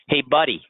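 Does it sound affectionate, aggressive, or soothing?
aggressive. It sounds hostile and confrontational. The listener is being challenged. "Starting a fight"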